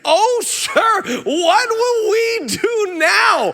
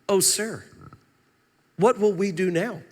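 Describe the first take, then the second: First: It is cried out in panic. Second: It is said calmly, without alarm.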